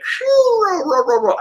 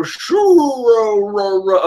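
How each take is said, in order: First: High squeaky Caesar cackle; Caesar laugh. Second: Slow, drawn-out Caesar laugh. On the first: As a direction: pitch the cackle way up. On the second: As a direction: stretch the cackle out slowly. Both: Retold or imitated. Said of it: "I can't do the Caesar voice".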